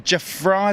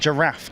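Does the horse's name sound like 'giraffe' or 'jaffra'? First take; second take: jaffra; giraffe. First: The name is said like 'jaffra'. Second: The name is said like 'giraffe'. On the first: The speaker calls it wrong. "is that how you say it?" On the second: The speaker calls it right. "spelt like giraffe"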